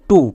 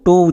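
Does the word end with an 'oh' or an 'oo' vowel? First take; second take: oo; oh. First: The word ends with an 'oo' vowel. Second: The word ends with an 'oh' vowel. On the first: The speaker calls it right. "এই শব্দের উচ্চারণটা হয়ে যাবে টু" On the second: The speaker calls it wrong. "ভুল করেও টো উচ্চারণ করব না"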